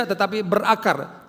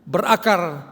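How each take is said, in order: First: Tetapi berakar drawn out slowly, tetapi hit hardest; slow down and lean on tetapi; slow stress on tetapi berakar. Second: Berakar said loud and falling, firmly; stress on berakar. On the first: Pastor slowing to stress tetapi berakar before the church. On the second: Pastor stressing berakar to the congregation, loud and firm. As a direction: land hard on berakar. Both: Shown as a demonstration.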